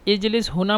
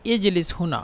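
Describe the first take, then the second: First: The verb is said with a j sound. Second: The same.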